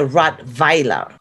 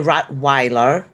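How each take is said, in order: First: The middle consonant is a V sound. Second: The middle consonant is an English W sound. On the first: This is how Germans say it. "we pronounce a W as a V. We say Rottweiler" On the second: This is how English speakers say it. "So you say Rottweiler"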